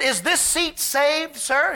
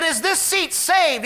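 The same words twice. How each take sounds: First: Slow, polite question from the lady; mild polite lady voice; lady asking politely. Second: Louder, higher repeat of the question; raised voice repeating for a man who missed it. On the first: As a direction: ask gently whether the seat is taken. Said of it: "She said". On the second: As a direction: say it again so he hears this time. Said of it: "He said, 'What?'". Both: Retold or imitated.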